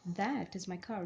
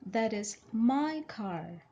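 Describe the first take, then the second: First: The word "that" carries the stress. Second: The word "my" carries the stress. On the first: "the stress here is on that" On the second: "When you stress on my"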